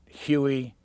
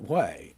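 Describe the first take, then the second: First: The name is said with two syllables. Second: The name is said with one syllable. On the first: The speaker calls it wrong. "people under forty wanted to pronounce it" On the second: The speaker calls it right. "anything but"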